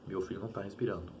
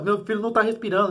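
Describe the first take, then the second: First: The voice sounds calm and unhurried. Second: The voice sounds panicked and urgent. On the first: "falando calmamente" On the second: "ligaria para a polícia totalmente em pânico"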